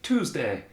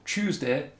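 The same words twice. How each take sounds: First: It is said with an American pronunciation. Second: It is said with a northern English pronunciation.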